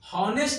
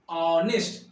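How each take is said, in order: First: The word starts with an h sound. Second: The word starts directly with a vowel. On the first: The speaker calls it wrong. "हॉनेस्ट नहीं बोलते हैं" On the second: The speaker calls it right. "क्या बोलते हैं, ऑनेस्ट"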